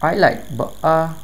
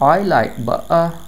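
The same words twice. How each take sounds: Both takes have the same delivery.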